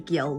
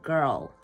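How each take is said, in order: First: It is said in a New Zealand accent. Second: It is said in an Indian English accent. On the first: This is how people in the new country talk. The speaker calls it wrong. "We don't say girl" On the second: This is how people back home talk. The speaker calls it right. "we say girl"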